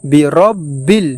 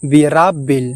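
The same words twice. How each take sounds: First: বিরাব্বিল slowly as bi-rob-bil with রো; slow, careful বিরাব্বিল with rounded রো; correct pronunciation. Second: বিরাব্বিল said with open রা, birabbil; the common mistake, বিরাব্বিল with রা; wrong pronunciation. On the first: Teacher models corrected বিরাব্বিল, slow and careful. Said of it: "আমাদেরকে বলতে হবে". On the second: Teacher imitates students' mistaken বিরাব্বিল, wrong vowel. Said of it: "অনেকেই ভুলবশত বলে থাকি". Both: Shown as a demonstration.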